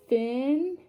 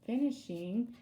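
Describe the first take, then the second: First: "fin-ish-ing" with a clear pause after each syllable; three separate syllables. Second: Said in the usual way. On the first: Shown as a demonstration. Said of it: "that's a three-syllable word". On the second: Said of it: "break it apart by its syllables".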